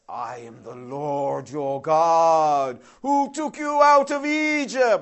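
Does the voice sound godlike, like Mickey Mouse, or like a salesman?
godlike. It is said in a grand godlike voice.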